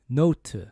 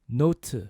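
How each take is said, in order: No difference in how they are said.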